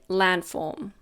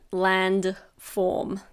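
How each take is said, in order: First: The D in the middle is almost silent. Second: The D in the middle is clearly pronounced. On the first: "When we say it naturally, we almost don't pronounce the D" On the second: "You might have noticed that I didn't say landform"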